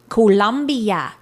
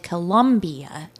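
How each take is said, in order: First: It is said the way the country's name sounds. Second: It is said the way an American city name sounds. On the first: It names the South American country. The speaker calls it right. "So you gotta say it like that" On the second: It names a city in Ohio. The speaker calls it wrong. "we're talking about, you know, a city in Ohio"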